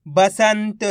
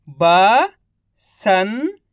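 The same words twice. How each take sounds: First: Said in the usual way. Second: Each syllable drawn out very slowly; slow syllable-by-syllable reading. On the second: Shown as a demonstration. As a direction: sound out सुरंग slowly as सु-रं-ग, one sound at a time. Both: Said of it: "एक अक्षर का उच्चारण करके".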